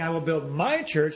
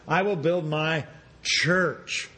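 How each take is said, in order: First: The stress falls on the word my. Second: The stress falls on the word church. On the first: The church belongs to its owner. "instead of saying I will build my church" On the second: The focus is on what the church is. "now we're going to emphasize I will build my church"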